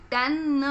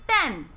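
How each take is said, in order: First: टेन slowly split, final न voiced separately; sounded out. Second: Said in the usual way. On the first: Shown as a demonstration. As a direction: sound out टेन as "te-nn", ending on its own. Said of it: "last में किस consonant की आवाज आ रही है". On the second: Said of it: "T E N".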